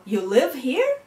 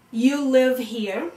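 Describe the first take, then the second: First: "You live here" rising high on "here"; "You live here" as a rising question; question intonation. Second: "You live here" as a slow statement; slowly stated "You live here"; statement intonation. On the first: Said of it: "a question is different from a statement". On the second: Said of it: "falling intonation or rising intonation". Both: Shown as a demonstration.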